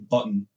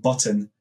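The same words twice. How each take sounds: First: The T is dropped, Scottish style. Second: The T in the middle is clearly pronounced.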